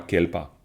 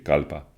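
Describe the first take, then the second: First: The first vowel sounds like 'e'. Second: The first vowel sounds like 'a'. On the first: The speaker calls it wrong. "C'est pas kelpa" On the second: The speaker calls it right. "c'est kalpa"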